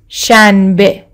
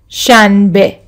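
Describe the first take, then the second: No difference in how they are said.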